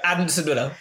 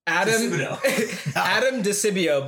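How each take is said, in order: First: The name is said very fast. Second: The name is said at a normal speed.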